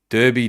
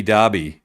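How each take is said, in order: First: Derby said as "DUR-bee"; Derby as spelt, first syllable like "fur"; "DUR-bee" pronunciation. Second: Derby said as "DAR-bee"; Derby rhyming with Barbie; "DAR-bee" pronunciation. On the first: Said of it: "W A they call it Derby". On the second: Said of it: "it was a Derby". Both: Shown as a demonstration.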